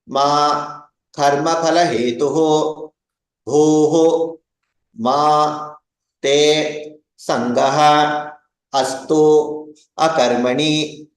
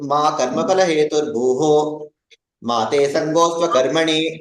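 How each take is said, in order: First: Each word is said separately, split apart. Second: Words are joined, pausing only where needed.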